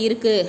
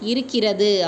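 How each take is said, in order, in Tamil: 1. இந்த வார்த்தை சுருக்கமான வடிவில் சொல்லப்படுகிறது. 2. இந்த வார்த்தை முழு வடிவில் சொல்லப்படுகிறது. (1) "நம்ம சொல்லும்போது இருக்குது அப்படின்னு நம்ம சொல்லுவோம்" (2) "எழுத்து வழக்காக மாற்றும்போது என்ன சொல்லுவோம்?"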